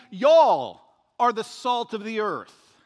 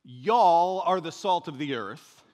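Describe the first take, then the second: First: Y'all punched loud and slow, whole line slow and louder; Y'all are the salt of the earth, slowly and loudly with y'all hit hardest; stress on y'all. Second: Y'all leaned on, line slow and louder; slow reading with y'all stressed. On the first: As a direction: hammer y'all as the whole congregation. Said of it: "He's saying". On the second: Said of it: "what else Jesus said". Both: Shown as a demonstration.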